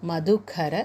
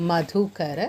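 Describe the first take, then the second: The two takes are said the same way.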